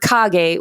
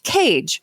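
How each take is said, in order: First: It is said with two syllables, kah-geh. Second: It is said like the English word cage. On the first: "the Japanese pronunciation" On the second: "the first time I've heard it pronounced"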